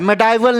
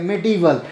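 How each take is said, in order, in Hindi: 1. दूसरा syllable 'die' जैसा सुनाई देता है। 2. दूसरा सिलेबल 'dih' जैसा सुनाई देता है। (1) "मेडाइवल नहीं बोलते" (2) "इसका एक्चुअल प्रोनाउंसिएशन जो होता है मेडिवल होता है"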